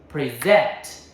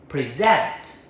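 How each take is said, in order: The two takes are said the same way.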